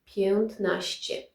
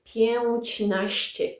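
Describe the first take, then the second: First: The first part ends in a plain t sound. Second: The first part ends in a soft ć sound. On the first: The speaker calls it right. "it's not pięć anymore, it's piętnaście" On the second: The speaker calls it wrong. "Pięćnaście doesn't sound very well"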